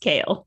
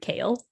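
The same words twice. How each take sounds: First: The name does not sound like the vegetable. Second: The name sounds like the leafy vegetable. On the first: "Sorry, it's Kale" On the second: "I pronounce his name like the leaf, like the lettuce leaf"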